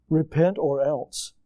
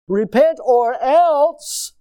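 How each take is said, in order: First: Slow, measured repent or else; grave deliberate reading; slow solemn quote. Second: Very slow, higher and louder; booming solemn ultimatum; drawn-out warning. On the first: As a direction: let the warning sink in. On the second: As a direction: stretch every word of it. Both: Shown as a demonstration. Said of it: "quoting the verse".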